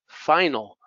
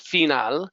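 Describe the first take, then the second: First: The first vowel sounds like 'eye'. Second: The first vowel sounds like 'ee'. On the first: The speaker calls it right. "No, it's final" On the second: The speaker calls it wrong. "Eso no es final"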